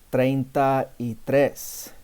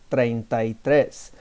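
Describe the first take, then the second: First: Said slower, with the words kept apart. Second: Said faster, with the words run together.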